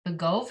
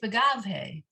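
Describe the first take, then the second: First: The middle vowel sounds like 'o'. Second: The middle vowel sounds like 'a'. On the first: The speaker calls it wrong. "the kamatz sounding more like an O" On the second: The speaker calls it right. "It's Begavhe"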